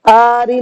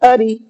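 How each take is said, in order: First: The first vowel is drawn out long. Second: The first vowel is kept short. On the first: The speaker calls it wrong. "आरी नहीं" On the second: The speaker calls it right. "नहीं खींच करके पढ़ेंगे।"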